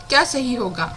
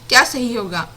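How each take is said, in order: Both takes have the same delivery.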